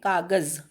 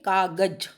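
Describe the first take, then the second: First: The final consonant is a 'z' sound. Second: The final consonant is a 'j' sound. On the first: "नुक्ता लगाने के बाद" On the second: "अगर आप नुक्ता नहीं लगाएंगे"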